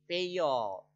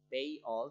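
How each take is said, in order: First: A y sound joins the two words together. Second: The two words are said separately, without a link. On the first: "karena ada linking kita katakan pay all" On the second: "Ini secara normalnya pay all"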